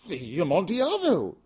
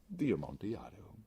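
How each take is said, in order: First: High, loud startled cry; Fortunato's astonished outburst; astonished exclamation. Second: Said in the usual way. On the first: Acted. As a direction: blurt it out in shock. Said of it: "ejaculated my friend". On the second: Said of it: "I replied".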